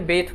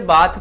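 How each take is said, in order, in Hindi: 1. स्वर एक छोटी 'eh' ध्वनि है। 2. स्वर एक लंबी, खुली 'ah' ध्वनि है। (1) "वैसे जो सही प्रोनाउंसिएशन है वो बेथ है" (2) "कुछ लोग इसे बात पढ़ते हैं"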